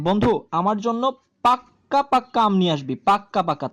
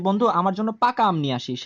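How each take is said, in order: First: পাক্কা পাক্কা with a held, doubled ক and a firm falling push; stress on পাক্কা. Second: Said in the usual way. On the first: Shown as a demonstration. Teacher insists a friend bring really ripe mangoes, stressing পাক্কা. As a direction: lean hard on the doubled ক in পাক্কা. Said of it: "সেটা হচ্ছে কম জোর বোঝাচ্ছে". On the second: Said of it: "এটা না বলে যদি আমি আমার বন্ধুটাকে বলি".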